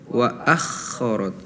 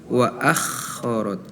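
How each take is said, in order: The two takes are said the same way.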